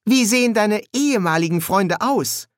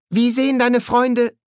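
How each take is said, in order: First: High question with "ehemaligen" inserted pointedly; self-correcting stress on EHEMALIGEN. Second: "Freunde" held high, no stress before it; high-voiced question. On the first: Pepper corrects herself at once about the friends, "ehemaligen" stressed. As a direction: correct yourself by marking out "ehemaligen". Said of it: "verbesserte sich sofort". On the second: Pepper begins asking Adam about his friends, high-voiced question. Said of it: "begann Pepper und verbesserte sich sofort". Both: A narrator's reading.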